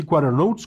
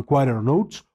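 First: "quarter" said with the T softened away, like "quarer"; common English pronunciation. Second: "quarter" said with its T clearly sounded; careful pronunciation. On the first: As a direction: glide over the T in "quarter". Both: Shown as a demonstration. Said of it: "generalmente lo pronuncian así".

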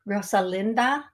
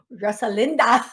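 First: "Rosalinda" in a light accent, rising at the end; channelled accent. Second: "Rosalinda" in a louder mock accent, falling end; exaggerated accent. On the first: Real, not acted. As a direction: offer "Rosalinda" tentatively in a borrowed accent. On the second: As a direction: echo "Rosalinda" with an amused, overdone accent. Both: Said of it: "accent come from?".

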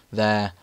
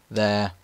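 Both takes have the same delivery.

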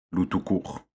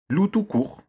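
First: Répété d'un ton amusé, plus doux. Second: Marmonné grognon, nettement plus aigu; râler en donnant son nom; bougon. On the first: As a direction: reprendre le nom avec malice. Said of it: "fit Gros Louis, amusé". (Gros Louis, amusé, répète le nom de Loup) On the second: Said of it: "bougonna Loup". (Loup, vexé, bougonne son nom à Gros Louis) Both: A narrator's reading.

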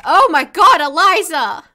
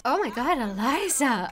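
First: Much louder, higher outburst of disbelief; loud exasperated cry. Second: Said in the usual way. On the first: Real, not acted. Gamer yells at her Sim Eliza, loud exasperation. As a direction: yell her name in real exasperation.

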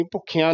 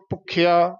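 First: ਭੁੱਖਿਆ with a nasal "aan"; nasalised ending. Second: ਭੁੱਖਿਆ with a pure "aa" ending; no nasal ending. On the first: Teacher showing what not to say, nasal ending. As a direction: add a nasal to the end of ਭੁੱਖਿਆ. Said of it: "ਭੁੱਖਿਆ ਨਹੀਂ ਕਹਿਣਾ". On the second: Teacher modelling the word, un-nasalised ending. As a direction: end ਭੁੱਖਿਆ without nasalising. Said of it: "ਬਿੰਦੀ ਨਹੀਂ ਲਾਉਣੀ". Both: Shown as a demonstration.

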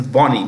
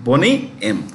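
First: "Bonnie" rhyming with "Johnny", not "bony"; Bonnie pronunciation. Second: "Bonnie" said like "bony"; long o in "Bonnie", as in a band's name; Boney pronunciation. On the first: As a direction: say "Bonnie" as BAW-nee, with an open o. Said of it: "B O N N I E". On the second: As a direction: say "Bonnie" as BOH-nee, with a long o. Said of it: "that is B O N E Y". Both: Shown as a demonstration.

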